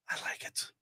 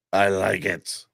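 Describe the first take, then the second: First: Breathy whisper to himself. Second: Said in the usual way. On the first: Real, not acted. Streamer whispering his delight at the news. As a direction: say it under your breath, pleased.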